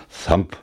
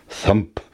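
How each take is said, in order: Both takes have the same delivery.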